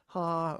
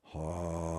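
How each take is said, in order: First: The sound is pitched high. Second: The sound is pitched low. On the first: "too high" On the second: "too low"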